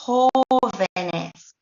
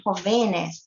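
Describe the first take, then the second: First: "jovenes" as HO-ve-nes, first syllable drawn out slowly; stress on first syllable. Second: "jovenes" stressed on the middle syllable, ho-VE-nes; wrong stress on jovenes. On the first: Teacher correcting the mistake for learners, "jovenes" slowly stressed HOOO-ve-nes. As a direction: stretch and punch the opening HO of "jovenes". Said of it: "The word maintains its stress here".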